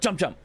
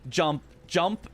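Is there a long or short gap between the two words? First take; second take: short; long. First: The second word follows the first almost immediately. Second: There is a longer gap before the second word. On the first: The second jump is pressed right away. "as opposed to" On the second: The second jump is pressed a little late. "The second jump, I delay a little bit"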